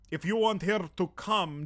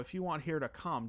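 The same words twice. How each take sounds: First: It is spoken in a Russian accent. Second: It is spoken in a Minnesota accent. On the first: "Can I do a Russian accent?"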